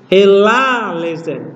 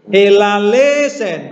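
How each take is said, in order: First: The pitch rises on the syllable 'la'. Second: The pitch does not rise on 'la'. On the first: The speaker calls it right. "Tapi la-nya naik" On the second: The speaker calls it wrong. "Bukan ella lesen, bukan"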